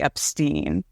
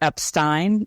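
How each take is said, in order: First: The last syllable has an 'ee' vowel. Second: The last syllable has an 'eye' vowel. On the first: "the I instead of E" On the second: "he definitely says the ein"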